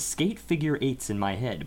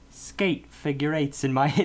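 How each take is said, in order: First: It is said in a plain, neutral accent. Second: It is said with a slight Irish brogue. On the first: "But he doesn't quite say it like that" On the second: "It's like he puts on a little bit of a brogue with this"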